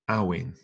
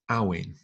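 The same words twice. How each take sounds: First: The middle consonant is a clear W sound. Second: The middle consonant is a clear W sound.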